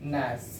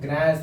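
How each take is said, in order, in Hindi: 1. यह शब्द n की आवाज़ से शुरू होता है। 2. यह शब्द g की आवाज़ से शुरू होता है। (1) "यहाँ पे जी को साइलेंट करके बोलते हैं" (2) "ग्रैस बोल दीजिएगा तो गलत हो जाएगा"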